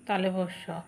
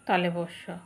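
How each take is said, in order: No difference in how they are said.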